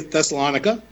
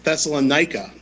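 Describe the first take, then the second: First: The name ends without a strong 'ike' sound. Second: The name ends with a strong 'ike' sound. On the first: "So I'm sorry if you say Thessalonica" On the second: "pronounced Thessalonica with a strong I-K-E sound at the end"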